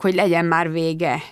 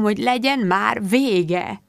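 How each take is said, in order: First: Said in the usual way. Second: Lassú, elhaló nyöszörgés, felfelé ívelő végződéssel; lassan, kétségbeesetten nyöszörögve. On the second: A narrator's reading. (lassú, panaszos nyöszörgés) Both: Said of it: "nyöszörgött Zsill".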